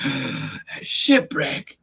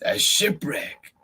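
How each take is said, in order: First: Slow breathless whisper of "A shipwreck"; gasp, then breathe "A shipwreck" slowly; awed gasp. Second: Said in the usual way. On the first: Acted. Gasping discovery of shipwreck.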